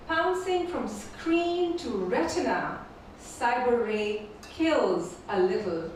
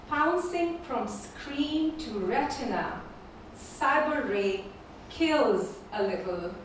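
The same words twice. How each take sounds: The two takes are said the same way.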